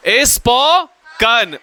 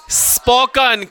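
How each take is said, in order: First: "spoken" stretched slowly in two parts, spo, then kan; syllable by syllable. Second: Said in the usual way. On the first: Shown as a demonstration. Teacher dictating the verb form to class, syllable by syllable. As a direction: draw out "spoken", pausing before the last syllable.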